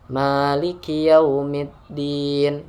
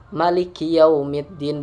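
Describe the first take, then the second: First: The vowel after the first m is long. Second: The vowel after the first m is short. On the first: "yang ma-nya panjang" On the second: "tanpa panjang gitu"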